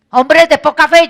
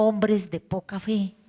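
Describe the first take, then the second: First: "Hombres de poca fe" shouted higher and louder, stress on fe; loud rebuke. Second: "Hombres de poca fe" lower, softer and slow, stress on Hombres; quiet rebuke. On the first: Jesus rebukes the disciples on the boat, "Hombres de poca fe" shouted. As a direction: bellow "Hombres de poca fe" as a scolding. Same rebuke retold twice. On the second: Jesus quietly reproaches the disciples, "Hombres de poca fe" soft and slow. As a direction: say "Hombres de poca fe" in a slow low disappointed murmur. Same rebuke, retold softly. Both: Acted.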